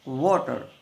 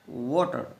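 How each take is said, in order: First: It begins with rounded lips, a w sound. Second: The same.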